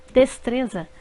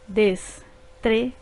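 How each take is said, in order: First: Said in the usual way. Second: Des-tre-za said slowly in three beats; syllables split apart, slow. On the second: Shown as a demonstration. Teacher slowly dividing des-tre-za for pupils. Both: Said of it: "formadas por três sílabas".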